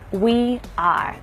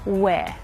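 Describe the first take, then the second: First: Two separate full words are clearly pronounced. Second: The two words merge into one contracted syllable. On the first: It sounds stiff and formal. The speaker calls it wrong. "instead of saying we are, it sounds quite sort of stiff and formal" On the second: It sounds natural and relaxed. The speaker calls it right. "you would probably just contract those two things together"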